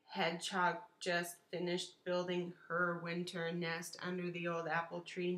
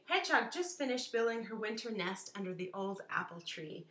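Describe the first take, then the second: First: It is read haltingly without natural expression. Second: It is read smoothly with natural expression. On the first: The speaker calls it wrong. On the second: The speaker calls it right.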